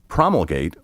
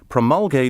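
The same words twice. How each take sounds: First: It uses the pronunciation taken from British speech. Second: It uses the older American pronunciation. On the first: This form came in later from abroad. "imported from Great Britain in the nineteen twenties" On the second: This is the traditional native form. "the original American pronunciation"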